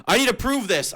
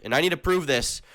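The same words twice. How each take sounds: First: Higher and louder, a hammed-up indignant cry; mock outrage. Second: Said in the usual way. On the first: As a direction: push it up into fake fury. Ranting about thumbnail slander.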